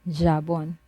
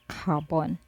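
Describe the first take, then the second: First: The word starts with an English J sound. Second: The word starts with a throaty, gargled sound. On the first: The speaker calls it wrong. "you don't pronounce this as jabon" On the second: The speaker calls it right. "but carbon"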